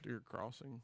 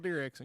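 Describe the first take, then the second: First: The second word is said as 'crossing'. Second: The second word is read literally as written. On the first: The speaker calls it right. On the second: The speaker calls it wrong.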